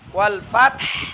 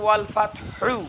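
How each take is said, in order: First: The word stops on a bare h with no vowel. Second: The final h is followed by a short u vowel. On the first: "যদি সাকিন করে ওয়াল ফাতহ" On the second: "এখানে আছে ওয়াল ফাতহু"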